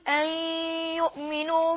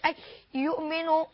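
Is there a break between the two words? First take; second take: no; yes. First: The words flow together with a held nasal sound. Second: A breath break separates the two words. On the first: The speaker calls it right. "نقول أن يؤمنوا بالله العزيز الحميد، لأن هنا إدغام وإدغام بغنة" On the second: The speaker calls it wrong. "ما أقولش أن يؤمنوا، هذا خطأ"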